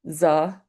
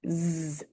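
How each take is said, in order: First: An uh vowel follows the consonant. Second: The consonant is clipped with no vowel. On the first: The speaker calls it wrong. "That's incorrect, adding the uh sound" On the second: The speaker calls it right. "Here's what they sound like clipped"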